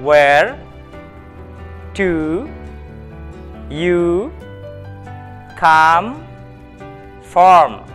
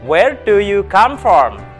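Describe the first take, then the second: First: The question is spoken at a moderate pace. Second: The question is spoken at a fast pace. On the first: "kita ulangi sekali lagi" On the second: "Lebih cepat"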